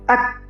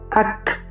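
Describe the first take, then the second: First: The final k is stopped with no air. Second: The final k is released with audible air. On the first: The speaker calls it wrong. "Jadi bukan" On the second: The speaker calls it right. "huruf kaf ini ada nafas ang- atau angin, yaitu ketika ini disukunkan"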